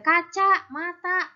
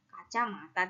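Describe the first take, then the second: First: A short break separates the two parts. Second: It is said as one unbroken word. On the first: The meaning changes. The speaker calls it wrong. "tidak boleh kaca mata, begitu tidak boleh" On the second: It means eyeglasses. The speaker calls it right. "Maka tidak boleh terpisah. Kacamata ya harus kacamata"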